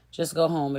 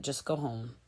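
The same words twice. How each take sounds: First: Said in the usual way. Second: Muttered aside. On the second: Real, not acted. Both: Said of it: "self-eliminate".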